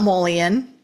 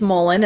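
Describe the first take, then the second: First: It is said with three syllables, mull-ee-on. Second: It is said with two syllables, mull-en. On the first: The speaker calls it wrong. "it's not Mullion" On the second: The speaker calls it right. "it's Mullen"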